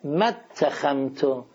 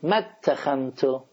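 First: The vowel after 'ma' is dropped and linked. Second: The same.

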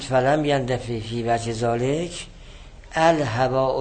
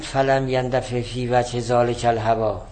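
First: There is a pause after ذالک, before الهواء. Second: ذالک and الهواء run together with no pause. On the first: الهواء starts a new phrase as the subject. The speaker calls it right. "بعد از ذالک باید یه ویرگول گذاشته بشه" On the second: The two words form one phrase. The speaker calls it wrong. "نگید فلم یندفع فی وجه ذالک الهواء، ذالک الهواء نخونید"

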